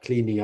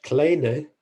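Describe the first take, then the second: First: Said in the usual way. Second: Kleene said as "KLAY-nuh"; correct pronunciation. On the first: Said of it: "nobody pronounces it like that". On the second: Shown as a demonstration. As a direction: say Kleene with an "ay" vowel and a final "uh", drawn out. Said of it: "correctly pronounced".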